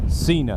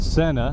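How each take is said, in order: First: The name sounds like the wrestler's name Cena. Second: The name does not sound like Cena. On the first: This is how the spelling suggests it should sound. "it would make perfect sense to pronounce it Cena" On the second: This is how the company says its own name. "who insist on pronouncing their name that way"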